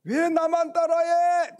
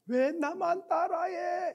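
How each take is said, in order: First: High, loud yell across a valley; loud calling protest; indignant shout. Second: High, drawn-out echo at normal volume. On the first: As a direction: holler it at an unseen copycat. Child yells at the echo. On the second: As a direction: bounce it back from the mountain. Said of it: "이렇게 들리는 거예요". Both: Retold or imitated.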